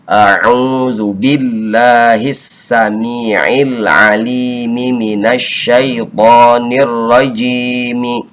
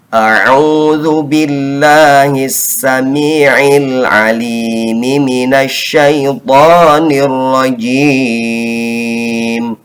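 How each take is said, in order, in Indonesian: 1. M terakhir diikuti vokal pendek. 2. Vokal terakhir dipanjangkan dan m berhenti. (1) "Dengan mim yang dihidupkan di akhir atau seolah-olah mau wasol" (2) "akhir daripada kalimat ta'awuz ini kita wakofkan"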